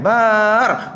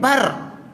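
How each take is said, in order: First: The vowel is drawn out long. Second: The vowel is short. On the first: The speaker calls it wrong. "Kita pergi panjang" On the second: The speaker calls it right. "Tempat pendek"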